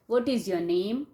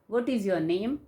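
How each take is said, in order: The two takes are said the same way.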